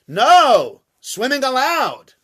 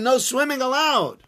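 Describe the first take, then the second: First: There is a pause after the word 'no'. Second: It is said as one phrase without a pause. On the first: Swimming is permitted. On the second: Swimming is forbidden.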